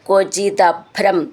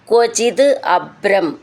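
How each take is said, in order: First: The two words run together as one. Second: The two words are said separately.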